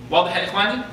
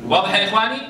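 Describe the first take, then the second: No difference in how they are said.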